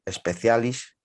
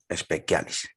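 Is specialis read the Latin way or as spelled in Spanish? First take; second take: Spanish spelling; Latin. First: The word is read as it is spelled. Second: The word is given its Latin pronunciation. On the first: "se escribe así" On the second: "en latín se pronuncia"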